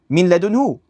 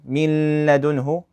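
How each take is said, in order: First: The n merges into l with no nasal hum. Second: A nasal hum is held before the l. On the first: The speaker calls it right. "Same thing here" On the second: The speaker calls it wrong. "We don't say ... min ladunhu"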